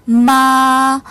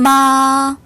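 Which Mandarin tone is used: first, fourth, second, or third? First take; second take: first; first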